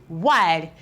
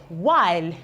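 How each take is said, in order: Both takes have the same delivery.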